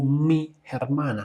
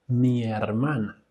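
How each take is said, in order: First: The two words are said apart with a break. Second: The two words run together without a break. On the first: The speaker calls it wrong. "No mi hermana o mi hermana. No, no, no. Conéctalo" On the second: The speaker calls it right. "vamos a conectarlo como mi, her, mi hermana"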